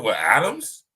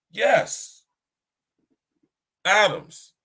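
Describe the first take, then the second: First: Rising, questioning answer; tentative guess. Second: High, emphatic, falling exclamations; surprised confirmation. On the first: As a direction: offer it as an unsure question. Retells his tentative answer to God. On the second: Most High confirming the answer of atoms, surprised. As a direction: imitate surprised agreement, high and punched. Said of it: "As if the Most High was surprised". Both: Retold or imitated.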